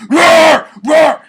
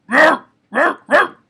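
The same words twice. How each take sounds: First: Very high, very loud yelled roar; full yell roar. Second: Very high, loud, barking roar without strain; controlled dog bark. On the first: Showing what not to do, full-force yelled roar. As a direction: yell it at the top of your lungs. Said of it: "You're not yelling at the top of your fucking lungs". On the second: Showing the right amount of force, controlled barking roar. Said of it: "You don't have to do a lot of force". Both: Shown as a demonstration.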